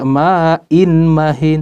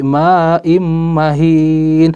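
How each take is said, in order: First: The sound before mahin is a plain n. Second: The sound before mahin is changed to m. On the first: The speaker calls it wrong. "kita tidak membaca ma'in mahin" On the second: The speaker calls it right. "tapi ma'im mahin"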